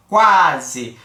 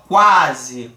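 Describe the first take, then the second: First: "quase" with a full a; "quase" with a firm a; "quase" com o a forte; demo word. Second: "Quase" lower, with the u almost swallowed; "Quase" com u discreto; low demo word. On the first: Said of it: "o A foi uma pronúncia mais com mais força". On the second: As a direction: slip over the u and land on the a of "Quase". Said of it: "a pronúncia dele foi muito discreta". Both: Shown as a demonstration.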